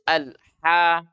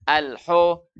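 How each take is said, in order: First: The vowel is light and open, like a. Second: The vowel is heavy and rounded, like o. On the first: The speaker calls it right. "harus alha, buka mulut" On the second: The speaker calls it wrong. "itu tebal"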